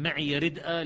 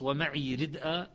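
First: "معي ردءا" with ya voiced "maʕiya"; Hafs reading. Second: "ومعي ردءا" slow, ya silent; Shu'ba reading. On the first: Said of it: "لحفص". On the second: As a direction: say "معي" short as maʕi. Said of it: "لشعبة". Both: Shown as a demonstration.

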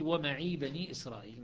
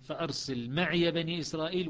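First: "ومعي" short, ya silent; Shu'ba recitation. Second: "معي" with voiced ya "meʕiya"; Hafs recitation. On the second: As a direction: recite voicing the ya. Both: Shown as a demonstration. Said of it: "الأعراف مية وخمسة".

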